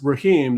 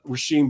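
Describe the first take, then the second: First: The name is said with a plain h sound. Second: The name is said with a sh sound. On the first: "the S is silent" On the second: "S and H, make a sh sound"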